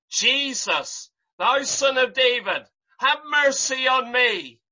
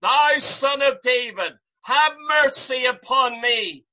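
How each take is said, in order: First: Crying out. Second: A bigger, more desperate cry for mercy. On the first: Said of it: "he began to cry out". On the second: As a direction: plead harder, pushing the voice up and out. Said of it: "He cried the more a great deal". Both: Retold or imitated.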